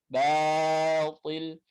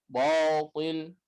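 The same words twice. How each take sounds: First: "batil" with light, thin a; correct thin batil. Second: "Batil" with dark, thick first vowel; wrong thick reading; wrong heavy batil. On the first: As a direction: keep "batil" thin and slow. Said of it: "Harusnya dibaca batil". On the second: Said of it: "bo, salah". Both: Shown as a demonstration.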